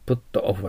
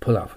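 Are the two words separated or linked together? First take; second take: separated; linked. First: The words are said separately, with full vowels. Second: The words are linked into one smooth unit.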